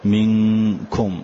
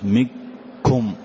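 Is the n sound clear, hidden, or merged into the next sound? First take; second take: hidden; merged. First: The n is hidden with a nasal hum. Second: The n merges fully into the following k. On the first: The speaker calls it right. "فجعلته وسطا بين الإظهار وبين الإدغام، فقلت مثلا" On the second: The speaker calls it wrong. "ولا قلت مكم"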